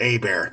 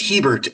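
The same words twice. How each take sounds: First: The name is pronounced the French way. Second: The name is pronounced the English way. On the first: "are French Canadian, you can pronounce it Hebert" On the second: "last name is Hebert"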